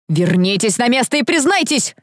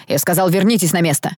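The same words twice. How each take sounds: First: Higher-pitched, forceful order; angry command. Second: Said in the usual way. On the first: A narrator's reading. Deputy dean bangs table demanding confession, angry command. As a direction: demand a confession, voice rising angrily. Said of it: "стукнул кулаком по столу замдекана".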